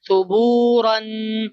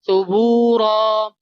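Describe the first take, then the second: First: The word ends with an -an sound. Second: The word ends with a bare -a sound. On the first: "ra fathatain ran"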